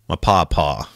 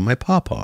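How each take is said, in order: First: It is said in an American Southern accent. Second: It is said in an English accent. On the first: The speaker calls it right. "That sounds like a very Southern thing to say" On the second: The speaker calls it wrong. "You can't do it in an English accent"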